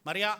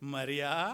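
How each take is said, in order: First: The name is said flatly, as an ordinary call. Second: The name is said in a special, expressive tone. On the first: It is just a plain call of the name. "Mariya అంటే మరియా అనలేదు" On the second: The caller knows her personally and reveals himself. "అది వేరే టోన్లో అన్నాడండి"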